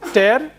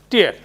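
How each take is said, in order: First: The vowel sounds like the word 'air'. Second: The vowel sounds like the word 'ear'. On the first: "In earlier case, it is air" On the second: "E A here is pronounced as ear"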